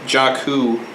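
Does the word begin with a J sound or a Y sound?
J sound. It is said in plain English, starting with J.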